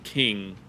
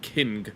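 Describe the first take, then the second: First: The word ends in one nasal ng sound. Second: A separate hard g is sounded at the end. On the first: The speaker calls it right. "You pronounce it King" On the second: The speaker calls it wrong. "You don't pronounce it King"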